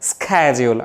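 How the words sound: The word begins with an sk sound. "আমেরিকানরা বলে স্ক্যাজিউল"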